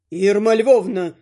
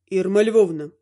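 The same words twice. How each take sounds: First: Name drawn out slowly and heavily; slowed retort. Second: Said in the usual way. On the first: A narrator's reading. Father pointedly addressing mother-in-law, slow. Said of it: "вякнул батя". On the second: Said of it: "выдал раздражённый отец".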